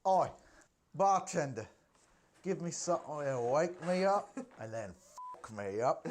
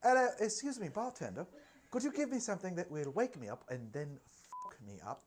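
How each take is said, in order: First: A hint of a cheeky British model ordering a drink; Kate Moss impression. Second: Prim posh British voice, high on hello; posh Kate Moss. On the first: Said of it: "That's my Kate Moss impression". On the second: Retold or imitated. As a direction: play her politely posh and proper. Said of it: "Is she more posh?".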